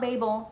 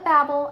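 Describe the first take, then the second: First: It is said not sounding like 'babble'. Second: It is said to sound like 'babble'. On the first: The speaker calls it wrong. "and not Babel" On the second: The speaker calls it right. "I call it Babel ... because there's parts in it where they're called babblers"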